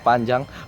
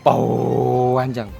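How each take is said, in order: First: It is said plainly without an added vowel. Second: An added u sound stretches the first vowel.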